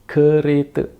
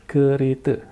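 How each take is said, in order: The two takes are said the same way.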